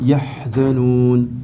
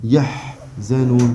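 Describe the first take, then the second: No difference in how they are said.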